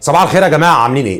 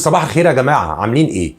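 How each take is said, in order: First: It is said too loudly, sounding angry. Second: It is said in a louder, confident voice.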